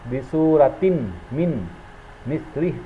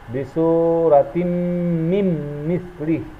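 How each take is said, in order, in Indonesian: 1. Bunyi n tetap dibaca sebelum m. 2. Bunyi n melebur ke dalam m. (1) "bukan dibaca bisuratin min mislih" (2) "langsung dileburkan kepada huruf berikutnya"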